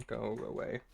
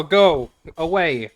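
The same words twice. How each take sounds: First: Said in the usual way. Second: Slow, loud, high dismissal with go punched; yelling at the rambling uncle to leave; loud go away. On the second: Real, not acted. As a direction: bark him off, stretching it out. Dismissing the NPC.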